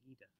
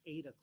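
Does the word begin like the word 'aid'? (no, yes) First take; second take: no; yes. First: The word does not begin like 'aid'. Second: The word begins like the word 'aid'. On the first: This is how it is said in Europe. "if you were in Europe, that's why they say Aida" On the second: This is how it is said in America. "in America, it was first started to say Aida cloth because it was aiding you"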